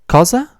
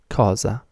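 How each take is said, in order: First: It is said with question intonation. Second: It is said with plain statement intonation. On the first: It asks what, or asks someone to repeat. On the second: It simply names the word for thing or what.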